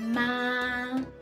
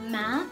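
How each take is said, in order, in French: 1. Le ton reste haut et plat. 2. Le ton commence bas et monte. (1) "Le premier ton, il est haut, il est plat" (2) "il commence vers le bas et il monte"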